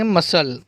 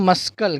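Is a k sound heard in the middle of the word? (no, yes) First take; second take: no; yes. First: No k sound is pronounced before the l. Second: A k sound is pronounced before the l. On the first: The speaker calls it right. "सी silent है इसलिए इसको पढ़ेंगे मसल" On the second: The speaker calls it wrong. "अगर हम सी की आवाज़ निकालें तो उसको पढ़ेंगे मस्कल"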